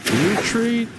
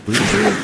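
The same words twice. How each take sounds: First: High cry to fall back; urgent call. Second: Loud high call to fall back; urgent shout. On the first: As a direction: call out the retreat again, higher. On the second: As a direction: bark the order to retreat. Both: Real, not acted. Ordering his troops back.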